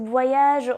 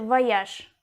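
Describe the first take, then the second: First: The final consonant is a voiced zh sound. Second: The final consonant is a voiceless sh sound. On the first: This is the French pronunciation. "En français, c'est voyage, on se tient ce je" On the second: This is the Russian pronunciation. "En russe, c'est voyage"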